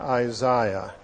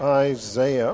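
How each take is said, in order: First: It is said in a British accent. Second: It is said in an American accent.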